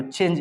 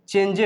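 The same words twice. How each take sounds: First: "चेंज" with the final E silent; correct reading. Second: "चेंजे" with the final E voiced; wrong reading. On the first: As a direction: end "चेंज" on the j, no vowel after it. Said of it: "चेंज इसको बोलना है". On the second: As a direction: say "चेंजे" as chen-je, adding an e. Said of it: "ऐसे पढ़ेंगे तो". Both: Shown as a demonstration.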